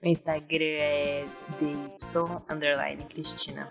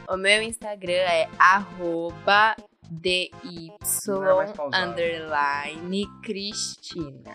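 First: It is said at a normal, quick pace. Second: It is said slowly, with pauses.

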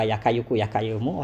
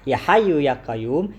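First: The phrase begins with a hard k sound. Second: The phrase begins with a breathy h sound. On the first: This is a garbled form of the prayer. The speaker calls it wrong. "yang dia ucapkan sebagai Ya Kayuku Ya Kayumu" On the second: This is the proper form of the prayer. The speaker calls it right. "baca doa Ya Hayu Ya Qayyum"

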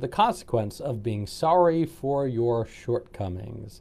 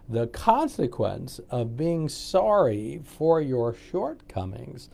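First: It is said at a faster pace. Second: It is said at a slower pace.

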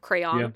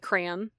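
First: It is said with the standard pronunciation. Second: It is said with a regional U.S. pronunciation. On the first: "instead of crayon" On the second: "in certain U.S. Dialects, you do say crayon"

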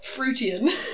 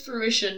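First: The word ends in a 'tay-shun' sound. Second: The word ends in an 'ish-un' sound. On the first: The speaker calls it wrong. "not fruitian" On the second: The speaker calls it right. "It's fruition"

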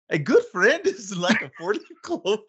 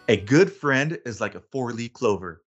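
First: It is said in a put-on Irish accent. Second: It is said in the speaker's usual accent.

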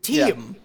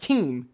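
First: The word has two syllables, dropping on the second. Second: The word is said as one strong syllable. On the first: The speaker calls it wrong. "it brings it down. You have to go on kind of a lower drop-off point on the second syllable" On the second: The speaker calls it right. "because team is strong, that's one syllable"

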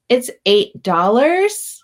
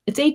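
First: It sounds hesitant, like a question. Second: It sounds firm and self-assured. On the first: The seller is afraid to state the price. "is that a question? Is this up for negotiation?" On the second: The seller stands behind the price. "being able to say it"

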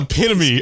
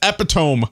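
First: The word is pronounced the standard way. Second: The word is pronounced as a misreading. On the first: The speaker calls it right. "It's epitome" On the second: The speaker calls it wrong. "I read it as epitome one time"

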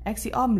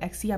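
First: The word is said slowly and fully. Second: The word is said quickly and reduced.

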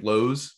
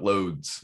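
First: The word is said without a D sound. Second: The word is said with a D sound. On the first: "Like Lowe's" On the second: "but Lowe's. That has a D in there"

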